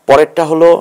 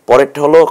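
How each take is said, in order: Both takes have the same delivery.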